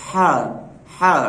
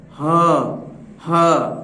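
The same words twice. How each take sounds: First: हा breathed out from the throat with air; airy throat हा; breathy throat sound. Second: हाँ sounded from the chest. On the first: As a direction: let हा out on the breath. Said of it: "सिर्फ हलक से आवाज़ आएगी, हवा के साथ". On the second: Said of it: "सीने से आएगी इसकी आवाज़". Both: Shown as a demonstration.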